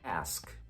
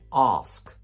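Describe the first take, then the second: First: The vowel is a front, open ah sound. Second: The vowel is a back, open ah sound.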